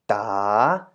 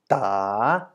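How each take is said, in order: First: The pitch dips and then rises. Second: The pitch dips and then rises.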